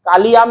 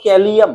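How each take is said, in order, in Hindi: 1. पहला स्वर एक चौड़ी खुली ध्वनि है। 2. पहला स्वर एक सपाट, मुड़ी हुई ध्वनि है। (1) "कालियाम नहीं" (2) "कालियाम को टेढ़ा बोलो"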